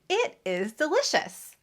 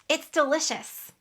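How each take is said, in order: First: Both words are pronounced fully and separately. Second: The two words merge into one short syllable. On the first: The speaker calls it wrong. "I don't say it is delicious" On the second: The speaker calls it right. "I make a contraction when I speak"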